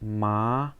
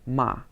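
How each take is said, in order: First: The pitch starts mid and rises. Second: The pitch falls sharply. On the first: "second tone" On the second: "the fourth tone"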